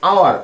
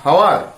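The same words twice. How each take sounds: First: The word starts with a vowel, no h sound. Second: The word starts with an audible h sound. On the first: The speaker calls it right. "The pronunciation is like hour" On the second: The speaker calls it wrong. "not hour"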